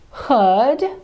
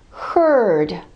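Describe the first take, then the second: First: The R before the D is silent. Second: The R before the D is clearly pronounced.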